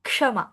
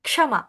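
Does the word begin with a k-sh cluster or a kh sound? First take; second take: k-sh cluster; k-sh cluster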